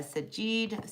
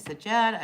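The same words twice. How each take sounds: First: "Sajid" with an "ee" in the last syllable; trying a pronunciation. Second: "Sajad" with an open "ah" in the last syllable; trying another pronunciation. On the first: Host guesses at a viewer's name, trying "Sajid" with "ee". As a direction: say "Sajid" slowly, ending like "jeed". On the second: Host guesses at a viewer's name, trying "Sajad" with "ah". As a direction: say "Sajad" louder, ending like "zhahd". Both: Real, not acted. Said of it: "I don't know how to say your name".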